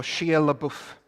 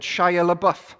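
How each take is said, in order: First: Shia LaBeouf said as SHEE-uh luh-BOOF; fixed Shia LaBeouf, SHEE-uh, stress on BOOF; corrected name. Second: Shia LaBeouf said as SHY-uh luh-BUFF; first wrong try at Shia LaBeouf, SHY-uh luh-BUFF; mispronounced name. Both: Shown as a demonstration. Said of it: "or Shia LaBeouf".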